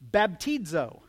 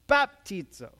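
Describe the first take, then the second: First: The stress falls on the second syllable. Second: The stress falls on the first syllable. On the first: The speaker calls it wrong. "The emphasis was on the teeds" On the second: The speaker calls it right. "It's on the first syllable"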